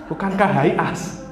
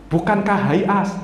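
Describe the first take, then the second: No difference in how they are said.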